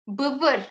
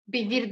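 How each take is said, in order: First: The vowels are central, like Turkish 'ı'. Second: The vowels are front, like English 'ee'. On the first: The speaker calls it right. "Bu Kürtçenin ısı oluyor" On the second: The speaker calls it wrong. "Bivir değil"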